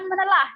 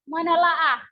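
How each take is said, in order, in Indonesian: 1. Kata itu diakhiri dengan 'a' tunggal yang pendek. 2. Kata itu diakhiri dengan bunyi 'a' ganda. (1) "bukan menelah ya" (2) "Jadi menelaah ya"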